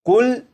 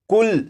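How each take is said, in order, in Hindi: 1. शब्द 'l' व्यंजन पर खत्म होता है। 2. शब्द 'l' व्यंजन पर खत्म होता है।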